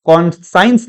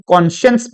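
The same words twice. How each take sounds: First: कॉन्साइंस as "kon-science"; wrong pronunciation. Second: कॉन्शियंस as "kon-shuns"; correct pronunciation. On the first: Teacher repeats the mistaken reading, कॉन्साइंस as kon-science. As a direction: give कॉन्साइंस a long sai vowel. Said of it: "कॉन्साइंस नहीं". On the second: Teacher repeats the right reading, कॉन्शियंस as kon-shuns. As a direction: say कॉन्शियंस with sh and a short vowel. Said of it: "कॉन्शियंस पढ़ा जाता है". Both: Shown as a demonstration.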